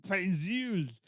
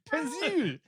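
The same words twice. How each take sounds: First: "Pencils" in mock Austrian-French; Austrian-French accent. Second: "Pencil" pitched high in mock Austrian-French; Austrian-French accent. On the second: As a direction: exaggerate "Pencil" higher, Austrian-French style. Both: Shown as a demonstration. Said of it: "How do you say pencil is Arnold Schwarzenegger Austrian French".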